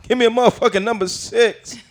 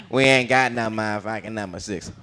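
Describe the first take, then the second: First: High-pitched comedian impression; Bernie Mac. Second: Fast-food clerk. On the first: Customer orders at McDonald's, high brash impression. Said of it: "Bernie Mac going to McDonald's and ordering". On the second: Acted. Clerk tells customer it's unavailable, understated reply. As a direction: answer in an everyday, unexcited voice. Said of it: "they don't have what he wants".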